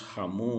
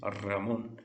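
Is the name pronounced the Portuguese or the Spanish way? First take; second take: Portuguese; Spanish. First: The name is said with Portuguese pronunciation. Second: The name is said with Spanish pronunciation. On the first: "aqui no português nós chamamos Ramon" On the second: "Em espanhol, o nome de pessoas é Ramon"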